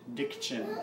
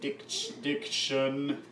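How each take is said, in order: First: The middle consonants are touched lightly, flowing smoothly. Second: The middle consonants are held long, with a break.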